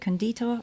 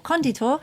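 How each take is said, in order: First: The stress is not on the first syllable. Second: The stress is on the first syllable. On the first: The speaker calls it wrong. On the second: The speaker calls it right.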